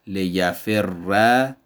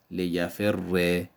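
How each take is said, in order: First: لیفر said slowly as "li-ya-frra", doubled r then a; slow لیفر ending on a; لیفر with geminate r and fatha; Arabic merged with fatha. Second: لیفر said slowly as "li-ya-frri", doubled r then i; slow لیفر ending on i; لیفر with geminate r and kasra; Arabic merged with kasra. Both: Shown as a demonstration. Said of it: "به سه صورت".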